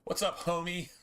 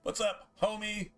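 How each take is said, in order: First: Greeting pitched up a bit; casual hello to a friend's mom; friendly greeting. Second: Much higher, sing-song hello; playful shout-out to a buddy's mom; high playful greeting. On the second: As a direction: call it out way up high. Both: Real, not acted. That's just James's mom.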